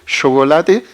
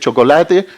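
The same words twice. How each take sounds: First: The first sound is a fricative sh. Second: The first sound is an affricate ch. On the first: This variant is socially stigmatized. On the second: This is the unmarked everyday variant.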